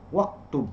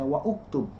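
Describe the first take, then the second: First: The vowel after 'wa' is dropped and linked. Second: The vowel after 'wa' is pronounced separately. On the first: The speaker calls it right. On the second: The speaker calls it wrong.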